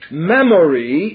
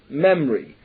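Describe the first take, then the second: First: All the vowels are pronounced fully. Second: The unstressed vowels are clipped and hurried.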